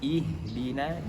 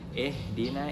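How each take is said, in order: First: The first vowel is a clear, pure i. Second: The first vowel drifts toward an e sound. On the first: The speaker calls it right. "Yang benar adalah ihdina" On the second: The speaker calls it wrong. "jangan ihdina, itu salah"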